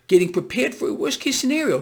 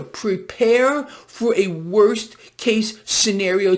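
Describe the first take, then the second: First: Said in the usual way. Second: Every word of "Prepare for a worst case scenario" slow and weighted; slow emphatic repeat. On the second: Real, not acted. Repeats the warning slowly for emphasis.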